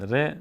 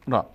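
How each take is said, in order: First: ر said "re", with an e vowel; Persian letter name. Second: را said "raa", with a long open a; Arabic letter name. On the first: Teacher giving learners the Persian name, ر as "re". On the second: Teacher giving learners the Arabic name, را as "raa". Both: Shown as a demonstration.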